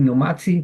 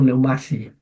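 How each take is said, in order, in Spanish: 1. Se oye un sonido t antes de la s. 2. No se oye un sonido t antes de la s. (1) "En vez de decir neumatsi" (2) "para hacerlo rápido"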